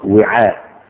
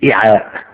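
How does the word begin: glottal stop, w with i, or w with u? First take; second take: w with i; glottal stop. First: It begins with w followed by an i vowel. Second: It begins with a glottal stop, not w. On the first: "يقرأ وعاء" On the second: "وبالهمز"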